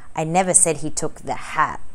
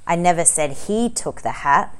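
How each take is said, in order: First: The word 'hat' is stressed. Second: The word 'took' is stressed.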